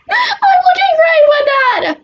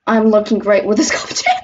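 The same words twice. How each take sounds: First: Much higher, louder and slower boast; a drawn-out high shout of pride; showy high yell. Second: Said in the usual way. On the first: Acted. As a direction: belt it out like a proud show-off.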